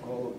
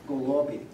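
First: The stress falls on another syllable. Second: The stress falls on the middle syllable. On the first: The speaker calls it wrong. "not golobi or whatever it might be" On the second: The speaker calls it right. "Stress on the middle syllable again"

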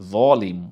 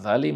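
First: The word has the Arabic emphatic, darker pronunciation. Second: The word has the plain Bengali pronunciation. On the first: The speaker calls it right. "আপনি যখন আরবিতে এটাকে পড়বেন আপনাকে পড়তে হবে জলিম" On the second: The speaker calls it wrong. "আপনি জালিম বললেন বাংলায় ... কিন্তু এটা ভুল হলো"

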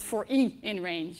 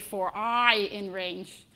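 First: The letter i sounds like "ee". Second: The letter i sounds like "eye". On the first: "in Dutch, we don't pronounce this letter as I, we pronounce it as E" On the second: "pronouncing it in an English way"

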